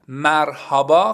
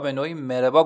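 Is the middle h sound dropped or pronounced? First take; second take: pronounced; dropped. First: The middle h sound is fully pronounced. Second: The middle h sound is dropped, said smoothly. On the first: This sounds bookish and formal. The speaker calls it wrong. "وقتی بگید مرحبا خیلی به قول خودمون کتابیه" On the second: This is the everyday, casual way to say it. The speaker calls it right. "مربا گفته میشه. یعنی شما خیلی روونتر میتونید اینو بگید"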